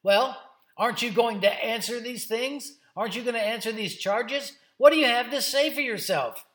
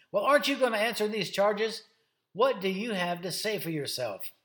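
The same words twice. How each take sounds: First: High, loud, demanding questions; bossy and indignant. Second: Raised, pressing challenge; challenging questioner. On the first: High priest demanding answers from Jesus, bossy and indignant. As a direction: confront him with mounting indignation. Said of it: "real bossy acting and indignant". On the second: High priest questioning Jesus about the charges, challenging. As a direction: confront someone who won't answer. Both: Acted.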